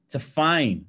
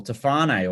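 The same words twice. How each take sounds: First: Tafane said tuh-FAYN; two-syllable variant. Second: Tafane said tuh-FAH-nay; three-syllable variant. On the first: Some people say Tafane. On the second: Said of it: "I say Tafane". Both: Shown as a demonstration.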